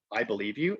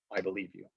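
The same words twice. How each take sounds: First: Said in the usual way. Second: Softer, gentle I believe you; soft reassurance. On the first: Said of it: "you'll say to them". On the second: Shown as a demonstration. To a survivor, gently and softly reassuring. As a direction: say it quietly, like a promise. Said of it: "absolutely be like".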